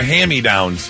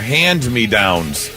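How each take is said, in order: First: The first part is said as 'hammy'. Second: The first part is said as 'hand me'. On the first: The speaker calls it wrong. "thought they were" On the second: The speaker calls it right.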